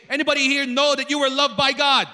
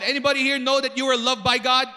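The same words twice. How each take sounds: First: Loud, quicker call to the congregation; rally an unconvinced crowd; rousing repeat. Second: Said in the usual way. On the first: Real, not acted. Preacher asks congregation after unconvincing answer, rousing and loud. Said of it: "One more time, not convincing". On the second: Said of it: "not convincing".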